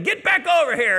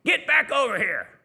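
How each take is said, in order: First: Much higher, much louder yell, losing patience; louder second yell. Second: A sharp yell, higher and louder; retold parent yell. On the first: Retold or imitated. Parent yells again at the kid who ignores them, full shout. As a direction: yell it harder the second time. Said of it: "yelled again". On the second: Parent yells across Taco Bell at swinging kid, loud yell. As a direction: bark it across the room at a kid. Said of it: "the parent yelled from across the restaurant".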